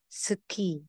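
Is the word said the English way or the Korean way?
Korean. It is said with Korean pronunciation. "Sa Korean"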